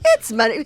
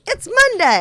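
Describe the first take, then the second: First: It is said flatly, without enthusiasm. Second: It is said with enthusiasm.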